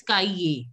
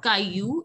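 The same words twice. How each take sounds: First: Caillé ending in "yay"; Caillé with final "ay", falling; correct ending. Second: Caillou ending in "yoo"; wrong ending. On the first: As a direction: model Caillé as "kai-yay". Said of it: "it is Caillé". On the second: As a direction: show the mistaken Caillou, "kai-yoo". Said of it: "It is not Caillou". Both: Shown as a demonstration.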